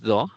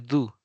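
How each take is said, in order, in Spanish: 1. La palabra se lee como está escrita. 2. La palabra se dice con pronunciación en inglés. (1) "Aunque es do" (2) "pero se pronuncia do"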